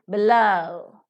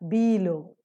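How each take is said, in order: First: The stress is on the second syllable. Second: The stress is on the first syllable. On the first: The speaker calls it right. "The second syllable is to be stressed" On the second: The speaker calls it wrong. "It is not below"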